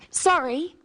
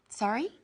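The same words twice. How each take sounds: First: The voice falls at the end. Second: The voice rises at the end.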